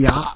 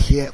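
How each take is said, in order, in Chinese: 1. 这个字读作 'ya'。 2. 这个字读作 'xie'。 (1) "古代念牙" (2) "现代念邪"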